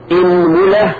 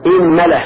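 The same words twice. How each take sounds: First: إنملة said "inmula", i then u; kasra, then damma. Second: إنملة said "inmala", opening on i; kasra on hamza. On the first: Teacher listing forms, إنملة as "inmula". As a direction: say إنملة with i on hamza, u on meem. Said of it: "وضمها". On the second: Teacher showing kasra then fatha, إنملة as "inmala". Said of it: "كسر الهمزة وفتح الميم". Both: Shown as a demonstration.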